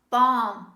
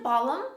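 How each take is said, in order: First: The L sound is silent. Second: The L sound is pronounced. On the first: The speaker calls it right. "This is balm" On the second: The speaker calls it wrong. "Don't say balm"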